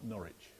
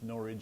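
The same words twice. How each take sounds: First: The word ends in an 'itch' sound. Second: The word ends in an 'idge' sound, like porridge. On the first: The speaker calls it wrong. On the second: The speaker calls it right.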